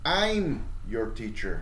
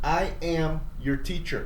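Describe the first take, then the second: First: I am is shortened to one syllable, I'm. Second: I am is said as two separate words. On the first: "it's pronounced I'm your teacher" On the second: "in full form"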